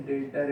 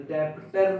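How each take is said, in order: First: डेटर with the b silent, no p sound; teacher giving the right form, डेटर with silent b; correct pronunciation. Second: डेप्टर with the p sounded; teacher showing the common mistake, डेप्टर with a p; wrong pronunciation. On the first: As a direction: say डेटर cleanly, nothing between डे and टर. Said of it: "बी silent है". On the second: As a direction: say डेप्टर wrongly, p clearly pronounced. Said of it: "डेप्टर नहीं है ना ये". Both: Shown as a demonstration.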